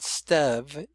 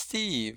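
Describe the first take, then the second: First: The word has a short E vowel sound. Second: The word has a long E vowel sound. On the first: The speaker calls it wrong. "It's not Stev" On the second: The speaker calls it right. "it shows that the E is long"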